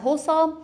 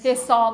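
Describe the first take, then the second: First: حسام said the Arabic way, as hosam with an o after the h; Arabic pronunciation. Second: حسام said the Persian way, as hesam with an e after the h; Persian pronunciation. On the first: Teacher showing the Arabic form of the name, saying حسام as hosam. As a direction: say حسام with a rounded o, hosam, and a raised pitch. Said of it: "تلفظ عربیش با ضمه است". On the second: Teacher showing how Persians say the name, حسام as hesam. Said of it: "تو زبان ما شده". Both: Shown as a demonstration.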